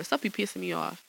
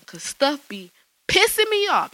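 First: Said in the usual way. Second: Pissing punched higher and louder, slow; stress on pissing. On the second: Real, not acted. Host vents about stuff bugging her, hitting "pissing". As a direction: lean hard on "pissing". Declaring what annoys her.

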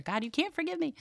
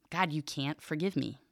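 First: The plea pitched much higher, rising on "me"; high pleading intonation. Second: Flat, quieter reading of the plea; another intonation. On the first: Teacher trying out the plea with a high whine. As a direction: lift "God, you can't forgive me." way up. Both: Shown as a demonstration. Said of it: "I'm trying to make different intonations here".

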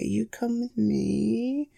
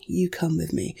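First: Slow, much softer, rising at the end; slow soft coaxing. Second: Said in the usual way. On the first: Acted. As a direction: coax the little guy gently along. Coaxing the caught spider.

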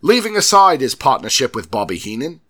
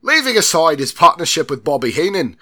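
First: Loud fake British accent losing its footing; drifting fake accent. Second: Loud, higher mock British accent; restored British accent. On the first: Host reading on as the accent changes, drifting fake British accent. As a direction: let the put-on British accent wander. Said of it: "it completely changed". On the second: Host restarting the line after the slip, emphatic put-on British accent. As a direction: retake it firmly in a fake British accent. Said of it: "please forgive me for these accents".

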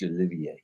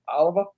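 First: Olivier said o-LIV-ee-ay, French ending. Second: Oliver as plain English OL-i-ver. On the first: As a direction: end Olivier on a soft ay. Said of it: "It's Olivier". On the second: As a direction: stress the first syllable of Oliver. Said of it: "we called it Oliver". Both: Retold or imitated.

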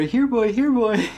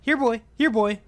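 First: High, louder sing-song dog call. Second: Calling a dog. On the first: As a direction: call it like whistling up a pet. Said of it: "and they go". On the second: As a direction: call out like summoning a pet dog. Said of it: "relative voices ... saying". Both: Retold or imitated.

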